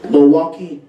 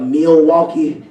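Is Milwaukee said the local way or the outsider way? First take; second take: local; outsider. First: It is said the way locals say it. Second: It is said the way outsiders say it. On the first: The speaker is from there. The speaker calls it right. "y'all got to say Milwaukee" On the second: The speaker is not from there. The speaker calls it wrong. "instead of Milwaukee"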